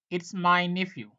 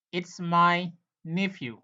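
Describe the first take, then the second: First: Said in the usual way. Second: "It's my nephew" said slowly, word by word; slow, careful "It's my nephew" for the class; slow teaching model. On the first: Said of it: "teacher repeats at normal speed". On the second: Shown as a demonstration. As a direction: spell it out slowly for learners. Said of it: "teacher repeats model sentence slowly".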